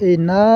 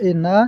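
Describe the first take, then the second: Both takes have the same delivery.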